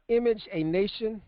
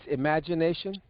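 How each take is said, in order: First: It is said slowly as three separate words. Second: It is said quickly as one run-together word.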